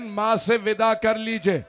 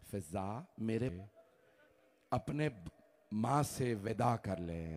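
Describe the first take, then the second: First: Louder and higher, called across the house; loud grieving call. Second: Hushed grieving call. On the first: Father calling his son to bid the mother farewell, loud. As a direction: call out to the son to come take leave. Maula loudly calling Hussain. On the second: Maula softly calling Fizza. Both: Acted.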